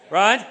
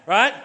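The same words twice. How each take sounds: The two takes are said the same way.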